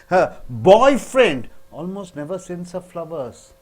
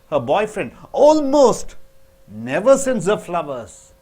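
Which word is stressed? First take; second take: boyfriend; almost. First: The word boyfriend is stressed. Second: The word almost is stressed. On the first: Someone else sends her flowers. "when you stress on boyfriend" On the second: He does send them once in a while.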